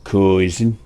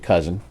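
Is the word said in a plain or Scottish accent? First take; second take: Scottish; plain. First: It is said in a put-on Scottish accent. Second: It is said in the speaker's plain accent.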